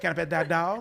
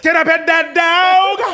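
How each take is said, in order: First: It is said fairly quietly. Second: It is said very loudly.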